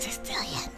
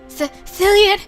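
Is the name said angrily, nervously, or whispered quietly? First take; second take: whispered; nervously. First: The name is whispered quietly. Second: The name is called with a quivering, nervous voice. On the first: "Just kind of quietly like whispers like" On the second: "this time letting my voice quiver"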